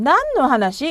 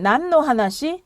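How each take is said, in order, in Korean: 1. 감정을 살려 강하게 강조해요. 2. 강조는 넣지 않고 평범하게 읽어요. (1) "이런 식으로 액센트를 주는 겁니다" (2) "그냥 읽을 때는"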